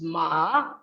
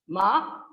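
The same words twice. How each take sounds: First: The pitch dips low, then rises. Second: The pitch rises from mid to high. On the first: It means horse. "low or falling then rising pitch" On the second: It means hemp. "Ma with high rising pitch"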